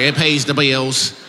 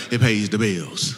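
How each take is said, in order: First: Slow, heavy Southern twang on pays the bills; twangy drawl. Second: Said in the usual way. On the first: Retold or imitated. Comic mimicking an audience member with an overdone twang. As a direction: drag it out with a thick twang. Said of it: "You didn't have that much twang". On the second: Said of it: "You didn't say it like that".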